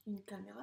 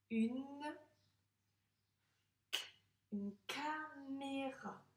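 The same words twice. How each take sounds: First: Said in the usual way. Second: "une caméra" stretched very slowly, syllable by syllable, higher; slow sounding out. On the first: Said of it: "c'est dont on se sert pour se filmer". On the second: Shown as a demonstration. Teacher slowly sounding out "une caméra" for the child. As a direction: draw out "caméra" as if reading it for the first time. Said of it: "Une caméra, c'est dont on se sert".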